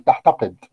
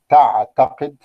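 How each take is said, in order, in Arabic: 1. الحرف الثاني هو ha مهموس. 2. الحرف الثاني هو ain مجهور. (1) "بإبدال العين حاء أثناء النطق" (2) "تعتقد بالعين"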